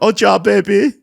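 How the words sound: It is spoken in a French accent. "here's a French accent"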